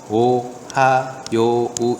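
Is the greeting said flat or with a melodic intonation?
flat. It is said flat, each syllable read separately. The speaker calls it wrong. "이렇게 읽는 게 아니라"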